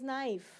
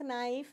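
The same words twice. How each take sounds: First: Knife said "naif", starting on n; silent K. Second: Knife said "k-naif", k sounded; mispronounced K. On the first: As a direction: leave the k out of knife. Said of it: "it is knife". (knife में क चुप, "नाइफ") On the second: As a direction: put a hard k before the n in knife. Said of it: "it is not knife". (knife में क की आवाज़ बोलते हुए) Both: Shown as a demonstration.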